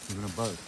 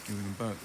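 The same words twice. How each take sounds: The two takes are said the same way.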